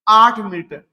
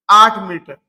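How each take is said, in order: First: Said in the usual way. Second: आठ said firmly, a little louder; emphatic repeat. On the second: Shown as a demonstration. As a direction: lean on आठ to drive it home. Teacher repeats the number. (आठ पर ज़ोर देकर दोहराना)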